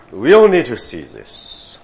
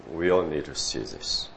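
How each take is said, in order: First: Loud, high urging of "we all need to see this"; a rousing call with "all" pushed; emphatic. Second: Said in the usual way. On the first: Shown as a demonstration. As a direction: press the point hard to the room.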